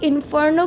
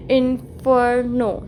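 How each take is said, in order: First: Said in the usual way. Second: "इन्फर्नो" in separate pieces, in-fer-no; every sound pronounced. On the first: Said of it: "अगर आप इन्फर्नो की बात करते हो". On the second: Shown as a demonstration. Teacher showing all sounds are heard, "इन्फर्नो" syllable by syllable. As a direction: break "इन्फर्नो" up so each part sounds. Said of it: "सारी इसकी sound आ रही है proper".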